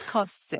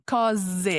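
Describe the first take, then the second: First: "cose" with a hard hissing S; "cose" hissed, the incorrect way; S sound, wrong. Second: "cose" with a voiced Z between the vowels; "cose" with a Z, as the rule says; Z sound. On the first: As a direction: say "cose" with a sharp S, not a Z. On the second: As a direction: say "cose" buzzing a Z. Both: Shown as a demonstration. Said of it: "the rule is that you get a Z sound".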